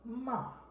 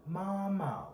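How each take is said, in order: First: The pitch falls sharply from high to low. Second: The pitch stays high and level. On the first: To scold. "The last one is falling tone" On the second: Mother. "with a flat tone"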